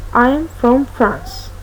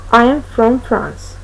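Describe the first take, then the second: No difference in how they are said.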